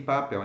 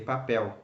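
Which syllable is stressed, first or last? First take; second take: first; last. First: The stress is on the first syllable. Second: The stress is on the last syllable. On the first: The speaker calls it wrong. "Why don't I say papel" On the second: The speaker calls it right. "you have to stress the last syllable of the word"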